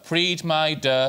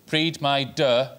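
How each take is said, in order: No difference in how they are said.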